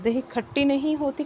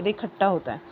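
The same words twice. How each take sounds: First: "खट्टी" raised high as the wrong usage; wrong form. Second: Said in the usual way. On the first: Shown as a demonstration. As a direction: lift the pitch on the mistaken form. (गलत रूप "खट्टी" ऊँचे सुर में)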